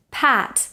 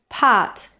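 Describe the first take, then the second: First: PAT with low jaw, lips stretched wide; spread front vowel. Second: PART in place of pat, with a central a; wrong vowel demo. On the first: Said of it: "lower your jaw and spread your lips". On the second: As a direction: say PART with lips unspread, vowel further back. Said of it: "not part". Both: Shown as a demonstration.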